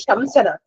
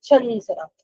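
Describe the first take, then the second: First: The lips close on a full m sound. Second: The vowel is nasalized without closing the lips. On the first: The speaker calls it wrong. "We don't say Shamsanat. / You won't have time to close your mouth so much" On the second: The speaker calls it right. "imagine a Chandrabindu on top of the Sa. ... That way you should say it"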